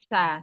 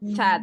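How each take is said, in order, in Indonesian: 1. Huruf ini dihembuskan lembut tanpa tekanan. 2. Huruf ini ditekan keras ke gigi. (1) "tidak boleh ada tekanan" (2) "jangan sad"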